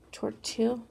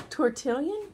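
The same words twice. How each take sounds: First: "tortilla" said as the food, tor-TEE-ya, a questioning rise; wrong word tortilla. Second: "Tortillion" said as tor-TIL-yon, rising and unsure; corrected word tortillion. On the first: Artist guessing the tool's name, says "tortilla" questioningly. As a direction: try "tortilla" first, the Spanish food word, asking. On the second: Artist correcting herself, unsure "Tortillion" with a rising question. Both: Shown as a demonstration. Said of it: "I always wanna say tortilla".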